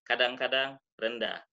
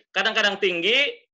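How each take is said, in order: First: "kadang-kadang rendah" dropped low. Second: "kadang-kadang tinggi" raised high and loud; loud, high demonstration tone. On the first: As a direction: sink the pitch on "rendah". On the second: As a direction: lift the pitch right up on "tinggi". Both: Shown as a demonstration.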